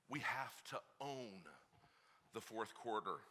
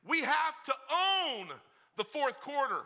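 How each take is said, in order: First: Low, hushed and slow; quiet first take. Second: Shouted, much higher and slow, OWN stretched; loud repeat. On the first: Preacher testing the dads, quiet and slow. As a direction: say it softly, almost to yourself. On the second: Preacher asking the dads if they heard, now shouting. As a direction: hammer it home the second time. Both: Shown as a demonstration. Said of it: "Did you hear me".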